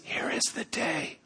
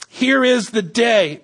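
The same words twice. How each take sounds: First: Unvoiced hushed whisper, much softer. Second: Said in the usual way. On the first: Shown as a demonstration. Men hiding in a cave, whispering to David. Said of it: "They'd have been whispering". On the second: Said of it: "they would have said it like this".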